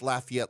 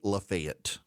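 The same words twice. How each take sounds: First: It is said the Louisiana way. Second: It is said the Georgia way.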